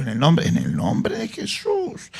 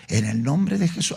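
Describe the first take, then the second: First: Hushed, slow whisper of the holy name; a slow reverent whisper, each word lingered on. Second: Said in the usual way. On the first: Shown as a demonstration. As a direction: breathe "En el nombre de Jesús" with no voice, drawn out. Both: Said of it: "Anótalo, anótalo".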